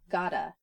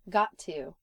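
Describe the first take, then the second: First: The words run together into one reduced form. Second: Both words are pronounced fully and separately.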